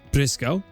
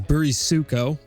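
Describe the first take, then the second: First: The name is said short, two syllables. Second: The name has extra vowels, four syllables. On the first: The speaker calls it right. "It's just Briscoe" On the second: The speaker calls it wrong. "which is totally wrong. That's not how you say it"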